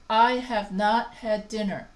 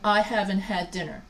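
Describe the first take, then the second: First: The words have not are said in full. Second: The words have not are contracted to haven't. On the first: It sounds formal, as when talking to a boss. "I avoid contractions and I simply say" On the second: It sounds casual, as when talking to friends. "than I haven't had dinner"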